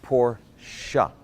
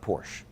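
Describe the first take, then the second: First: "Porsche" said as POR-shuh, syllables set apart; two-syllable Porsche. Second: "Porsche" cut to one syllable, PORSH; "Porsche" as the common mispronunciation, rhyming with "torch" but ending in sh. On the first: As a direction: teach "Porsche" slowly with a clear final "shuh". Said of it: "it's actually pronounced Porsche". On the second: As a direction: say "Porsche" without the final "uh". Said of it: "It's not Porsche". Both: Shown as a demonstration.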